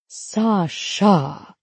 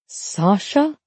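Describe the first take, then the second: First: The name has heavy emphasis on the last syllable. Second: The name sounds incredulous, like a disbelieving question. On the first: The name itself seems to explain something. "putting emphasis on the sha" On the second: The speaker can hardly believe the name. "I say her name incredulously"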